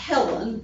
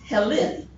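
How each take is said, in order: First: It is said like the usual woman's name. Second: It is said like the root of Hellenistic. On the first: It names a woman. The speaker calls it wrong. "not Helen, like a, a female, kind of a traditional female name" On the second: It names the male founder of the Greeks. The speaker calls it right. "but Helen, which is where they get the term Hellenistic"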